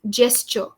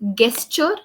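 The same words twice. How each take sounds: First: The word begins with a soft j sound. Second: The word begins with a hard g sound. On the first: The speaker calls it right. "we pronounce it as jo" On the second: The speaker calls it wrong. "It's not gesture"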